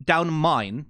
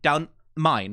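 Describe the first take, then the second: First: The word 'the' is reduced to a glottal stop. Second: The same.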